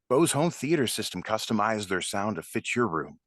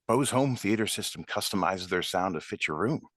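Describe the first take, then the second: First: The speaker sounds confident and matter-of-fact. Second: The speaker sounds a little unsure.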